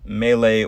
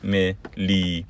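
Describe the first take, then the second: First: The word is given its standard pronunciation. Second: The word is given a spelling-based childhood pronunciation. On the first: The speaker calls it right. "gotta get rid of that those old habits" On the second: The speaker calls it wrong. "I didn't know how to pronounce the word melee"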